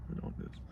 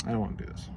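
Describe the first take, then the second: First: Whispered dread; barely voiced reluctant whisper. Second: Low, soft reluctant mumble; soft dreading sigh of a line; reluctant murmur. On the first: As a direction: whisper it to yourself. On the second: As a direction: mumble it under your breath. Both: Shown as a demonstration. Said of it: "repeated as whisper".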